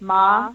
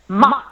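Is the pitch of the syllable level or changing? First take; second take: level; changing. First: The syllable is said on an even pitch. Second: The syllable is said with a changing pitch. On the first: It means mother. "if I say ma evenly, that's like mother" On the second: It means scolding someone. "that means I'm scolding you"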